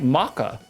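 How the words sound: The word is said in a British-style accent.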